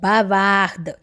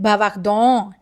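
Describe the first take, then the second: First: The final ending is silent. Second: The final ending is pronounced aloud. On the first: The speaker calls it right. "E N T will remain silent" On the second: The speaker calls it wrong. "that's a wrong pronunciation"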